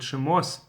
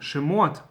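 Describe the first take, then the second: First: The word ends with an s sound. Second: The word ends with a t sound.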